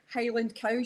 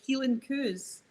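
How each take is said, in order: First: It is said in a standard, non-Scottish accent. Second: It is said in a Scottish accent.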